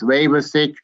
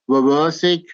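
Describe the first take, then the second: First: The stress is on the first syllable. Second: The stress is on a later syllable. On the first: The speaker calls it right. "stressing on the first phrase" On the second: The speaker calls it wrong.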